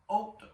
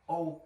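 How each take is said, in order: First: The H and final T are sounded. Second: The H and final T are silent. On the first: The speaker calls it wrong. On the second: The speaker calls it right.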